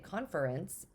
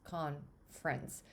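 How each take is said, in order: First: It is said with three clear syllables. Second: It is said with almost two syllables. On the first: "I don't say conference. I don't enunciate that second syllable" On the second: "I say it as almost like two syllables"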